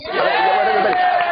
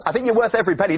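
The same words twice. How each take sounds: First: Emphatic shout. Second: Said in the usual way. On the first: Real, not acted. Repeats compliment to the crowd.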